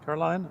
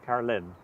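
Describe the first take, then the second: First: The last syllable sounds like 'line'. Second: The last syllable sounds like 'lin'. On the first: The speaker calls it wrong. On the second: The speaker calls it right.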